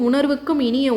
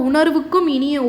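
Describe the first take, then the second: The two takes are said the same way.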